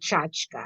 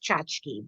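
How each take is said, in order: First: The word ends with an 'ah' sound. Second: The word ends with an 'ee' sound. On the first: This is how the speaker's mother said it. "my mother always pronounced it Chachka" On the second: This is how some other people say it. "I've heard it pronounced Chachki"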